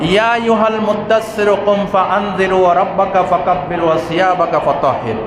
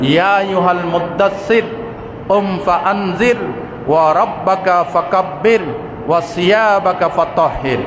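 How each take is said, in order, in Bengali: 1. এটি থামা ছাড়াই একটানা পড়া হয়। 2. এটি বাক্যাংশগুলোর মাঝে থেমে থেমে পড়া হয়। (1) "থামলাম না" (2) "যদি থেমে থেমে পড়ি"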